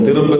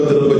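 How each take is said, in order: Both takes have the same delivery.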